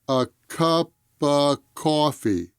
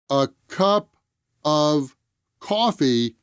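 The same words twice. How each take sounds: First: 'Cup' and a reduced 'of' run together. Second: Each word is said separately, with 'of' in full.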